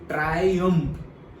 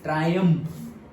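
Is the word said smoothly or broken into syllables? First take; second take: broken; smoothly. First: The word is broken apart syllable by syllable. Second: The word is said smoothly in one go.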